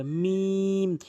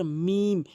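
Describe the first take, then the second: First: মিম with a long held vowel, lips closing; drawn out. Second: Said in the usual way. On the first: Shown as a demonstration. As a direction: stretch the middle of মিম. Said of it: "এভাবে টেনে উচ্চারণ করবেন". (মিম টেনে টেনে)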